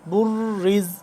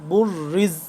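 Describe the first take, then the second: The two takes are said the same way.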